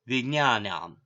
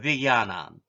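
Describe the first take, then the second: First: The cluster is said with a g and ny sound. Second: The cluster is said with a g and y sound. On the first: "southern style" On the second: "northern style"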